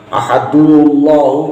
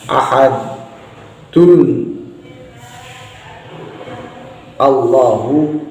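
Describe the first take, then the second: First: The n is dropped and the words run together. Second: Both words are kept apart with a glottal break. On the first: "juga nggak dibenarkan" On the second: "juga nggak boleh karena ini hamzahnya hamzah wasol"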